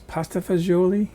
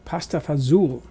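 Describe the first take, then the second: First: It is said the usual American way, fagioli. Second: It is said in dialect, ending in 'fazool'. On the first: This is how the dish is known in this country. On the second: This is how the family elders said it. "they pronounced it pasta, pasta fazool"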